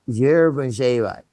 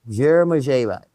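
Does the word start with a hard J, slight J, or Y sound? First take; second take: slight J; slight J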